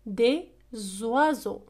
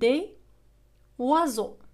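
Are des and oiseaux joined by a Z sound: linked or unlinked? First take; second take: linked; unlinked. First: The two words are joined by a Z sound. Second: The two words are said without a Z link.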